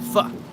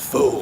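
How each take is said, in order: First: The vowel sounds like the one in fudge. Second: The vowel does not sound like fudge. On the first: The speaker calls it right. "You're right. ... I just remember it like fudge" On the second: The speaker calls it wrong. "Everybody says pho, pho, but it's not"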